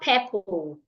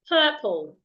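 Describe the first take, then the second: First: The first vowel is short. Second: The first vowel is long. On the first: The speaker calls it wrong. "It's not purple" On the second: The speaker calls it right. "Another word here that has a long vowel is purple"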